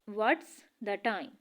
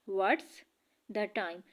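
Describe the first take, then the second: No difference in how they are said.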